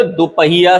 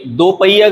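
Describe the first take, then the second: First: दोपहिया with a clear h, do-pa-hiya; correct pronunciation. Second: दोपहिया without h, do-pa-iya; wrong pronunciation. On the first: Teacher correcting it, दोपहिया said as do-pa-hiya. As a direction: sound the hi in दोपहिया. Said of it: "सही है". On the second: Teacher showing the mistake, दोपहिया said as do-pa-iya. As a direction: drop the h from दोपहिया. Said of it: "गलत है". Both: Shown as a demonstration.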